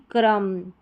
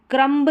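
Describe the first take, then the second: First: क्रम ending on m; silent b. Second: क्रम्ब with final b sounded; higher pitch, audible b in क्रम्ब; wrong pronunciation. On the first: Teacher giving correct form, क्रम with silent b. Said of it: "B silent है". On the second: Teacher showing the mistake, b voiced in क्रम्ब. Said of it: "क्रम्ब नहीं". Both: Shown as a demonstration.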